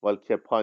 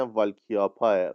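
First: والکپا said flatly, as spelled; the mistaken reading والکپا; wrong pronunciation. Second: والکیاپاه with a long ia and a final breathy aah; repeating the pronunciation Ms Asali gave; correct Finnish name pronunciation. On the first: Shown as a demonstration. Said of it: "نیست". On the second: Retold or imitated. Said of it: "خانم عسلی لطف کردن، گفتن". (تلفظ «والکیاپاه» با «یا» و «آه» کشیده در پایان)

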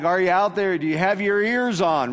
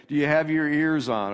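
First: Louder, higher mock radio call. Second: Said in the usual way. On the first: Pastor imitating an old CB radio call, mock loud call. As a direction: call out like a trucker on the CB. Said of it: "that was a C B call". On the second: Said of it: "That's what Jesus is saying".

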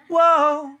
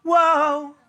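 First: High whoa, laughing; mock whoa with a laugh. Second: High mock whoa; imitating the audience's whoa. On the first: Shown as a demonstration. Singer correcting the audience, laughing high whoa. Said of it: "And it's not". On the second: Singer mimicking the audience's too-early whoa. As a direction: copy the crowd's eager whoa. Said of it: "you all went".

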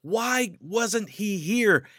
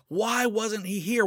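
First: Slow, high, anguished WHY falling at the end; Martha's hurt demand, slowed and pitched up; angry demand. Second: High, with WHY tossed up into a rising question; pleading question. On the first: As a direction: drag out the word why in angry grief. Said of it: "She was angry with Jesus". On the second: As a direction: ask it again as a desperate plea. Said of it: "she was pushing him for answers". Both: Retold or imitated.

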